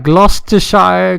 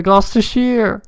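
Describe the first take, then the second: First: Gloucestershire ending like "shy-er"; ending pronounced "shire". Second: Gloucestershire ending like "sheer", pitched up; ending pronounced "sheer". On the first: Tries two pronunciations of place name. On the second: Second pronunciation of same place name. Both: Shown as a demonstration.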